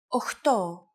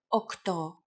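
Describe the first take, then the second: First: The middle consonant is a rough ch sound. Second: The middle consonant is a hard k sound. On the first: This is the casual form. The speaker calls it wrong. "especially in casual conversation, Greeks also use" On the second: This is the standard form. The speaker calls it right. "The pronunciation we have used ... is the standard pronunciation"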